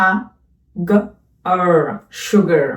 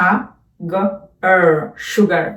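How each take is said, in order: No difference in how they are said.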